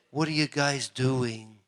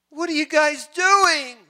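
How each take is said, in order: First: Slow, low, softer puzzled question; understated, drawn-out imagined question; subdued question. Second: High, slow mock exclamation; imagined exasperated call, high and drawn out; incredulous outcry. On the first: Pretend. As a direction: ask it slowly and softly, as imagined speech. God imagined asking, first subdued take. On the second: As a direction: cry it out high, stretching the words. God imagined asking, repeated as outcry.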